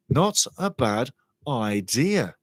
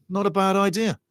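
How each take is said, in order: First: Half-speed, "Not a bad idea" drawn out word by word; deliberate repetition. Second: Said in the usual way. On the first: Real, not acted. Commentator mulling a player's move to MLS, slow and deliberate. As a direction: stretch "Not a bad idea" slowly, pausing between words. Repeats himself slowly for emphasis.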